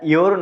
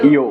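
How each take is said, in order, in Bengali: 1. এই শব্দটি একটি স্পষ্ট r ধ্বনি দিয়ে শেষ হয়। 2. এই শব্দটি কোনো r ধ্বনি ছাড়া শেষ হয়। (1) "ইওর না বলে" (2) "সেই আর সাইলেন্ট হয়ে যায়"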